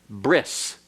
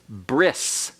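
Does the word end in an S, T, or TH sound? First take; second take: S; S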